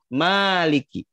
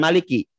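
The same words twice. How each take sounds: First: The first vowel is long. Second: The first vowel is short. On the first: The speaker calls it right. "tapi baca panjang" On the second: The speaker calls it wrong. "bukan maliki. Bukan dibaca pendek"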